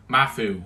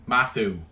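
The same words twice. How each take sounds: The two takes are said the same way.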